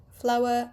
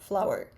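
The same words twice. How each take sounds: First: "flower" ending in a schwa, no R; non-rhotic. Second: "flower" with the final R sounded; rhotic R. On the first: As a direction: say "flower" British-style, dropping the final R. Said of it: "non-rhotic accent is". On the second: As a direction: say "flower" American-style, curling into the R. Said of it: "not flower". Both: Shown as a demonstration.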